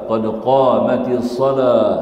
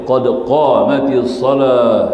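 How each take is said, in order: First: The phrase is grouped as qad qamatis salah. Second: The phrase is grouped as qad qamatis salah.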